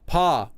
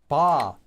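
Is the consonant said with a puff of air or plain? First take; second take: puff of air; plain. First: The consonant is said with a puff of air. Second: The consonant is said plainly, without extra air.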